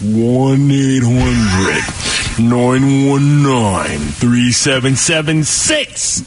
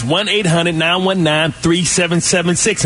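First: Very slow, drawn-out low digits; mock-patient slow motion, low, picking up toward the end; real slow. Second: Brisk, energetic phone-number read; rapid-fire number. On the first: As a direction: stretch every number out as if for slow listeners. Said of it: "I'll say it for you real slow". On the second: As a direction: rattle the number off at full energy. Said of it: "keep up with my speed and my energy". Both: Shown as a demonstration.

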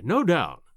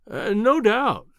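First: Said in the usual way. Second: Slow, drawn-out placating agreement, higher on "no doubt"; humoring. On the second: A narrator's reading. Narrator humors the professor about his sketch, slow and patronizing. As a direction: humor him as if he were a fool, stretching "no doubt". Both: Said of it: "as one humors an imbecile".

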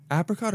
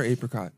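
First: Apricot with a short a, as in "cat"; short-a pronunciation. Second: Apricot with a long a, as in "ape"; long-a pronunciation. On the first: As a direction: start Apricot with the vowel of "apple". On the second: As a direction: start apricot with "AY". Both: Shown as a demonstration. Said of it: "Are we saying apricot or apricot?".

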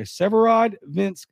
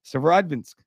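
First: "Severodvinsk" drawn out slowly, higher, ending on a rise; careful pronunciation. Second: Said in the usual way. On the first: Shown as a demonstration. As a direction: sound out "Severodvinsk" slowly for the listeners. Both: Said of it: "is how you actually say it".

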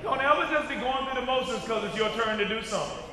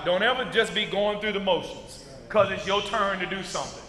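First: Fast run-through of the line; brisk repeat. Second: Said in the usual way. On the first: Shown as a demonstration. Preacher repeating the warning to the church, quickly. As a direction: rattle it off quick.

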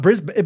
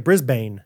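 First: Said in the usual way. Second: "Brisbane" said BRIZ-bayn, full long A; "Brisbane" with a full "bane" second syllable; spelling pronunciation. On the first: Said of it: "but it looks like". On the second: Shown as a demonstration. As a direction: say "Brisbane" as written, rhyming with rain. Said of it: "it looks like Brisbane".

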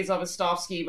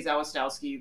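First: "Zawistowski" the Polish way, V sounds for both W's; Polish pronunciation. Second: "Zawistowski" the Midwestern family way, no V sounds; Midwest in-laws' pronunciation. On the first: Guest shows how Poles say her surname, Zawistowski with V sounds. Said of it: "if you're actually Polish, you would say". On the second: Guest shows how her in-laws say Zawistowski, W's kept as W's. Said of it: "they don't pronounce the W's as V's". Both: Shown as a demonstration.

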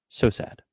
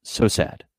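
First: Breathy whispered echo. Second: Said in the usual way. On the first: Real, not acted. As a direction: whisper it as an aside. Echoes in a whisper.

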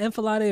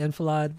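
First: Enfilade said with an AY ending, "en-fuh-lah-DAY"; final syllable pronounced. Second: Enfilade ending on a D, "en-fuh-LAHD"; silent final E. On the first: Unsure host asks co-host how to pronounce it, enfilade ending in "day". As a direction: end enfilade on a sounded "day". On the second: Unsure host offers co-host the other pronunciation, enfilade ending in "lahd". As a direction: end enfilade on "lahd", no AY sound. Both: Shown as a demonstration. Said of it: "Is it enfilade or is it enfilade?".

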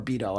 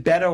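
First: "Beto" said as BEE-toe; "Beto" with first syllable like "bee"; first vowel as ee. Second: "Beto" said as BEH-toe; "Beto" with first syllable like "bet"; first vowel as eh. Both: Shown as a demonstration. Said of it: "is it Beto or Beto?".

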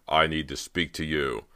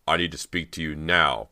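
First: Firm, controlled demand; confronting. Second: Louder demand, landing hard on "now"; insist, punching "now" at the end; insistent. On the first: Bo stops Cody backing away, firm confrontation. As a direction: state it firmly, to confront. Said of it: "He moved quickly to confront her". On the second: Bo to a hesitant Cody, insistent stress on "now". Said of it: "Bo insisted". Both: A narrator's reading.

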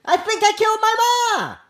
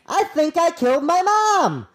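First: High, stunned voice for the quote; dazed quote voice. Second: Raised, stunned delivery of the quote; dazed quote voice. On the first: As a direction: read the quote like a shaken young man. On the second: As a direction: quote him like he is in shock. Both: Retold or imitated. Quoting a dazed suspect.

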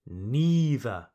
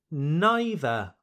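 First: Neither with a long E; NEE-ther. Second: Neither with a long I; NIGH-ther. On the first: Teacher offers second option, neither as NEE-ther. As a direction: say neither starting like knee. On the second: Teacher offers first option, neither as NIGH-ther. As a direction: say neither rhyming its start with eye. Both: Shown as a demonstration. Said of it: "The same goes for neither".

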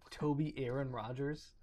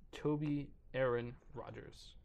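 First: "Toby Aaron Rogers" with a questioning rise at the end; "Toby Aaron Rogers?", lifted at the end in disbelief; incredulous repeat. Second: Said in the usual way. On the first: Real, not acted. I can't believe that man.

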